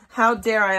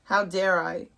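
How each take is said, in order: First: Louder, mock-outraged how dare I; indignant. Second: Said in the usual way. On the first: Shown as a demonstration.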